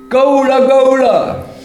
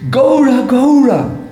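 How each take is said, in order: First: The call is said in a plain way. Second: The call is said in a loving way.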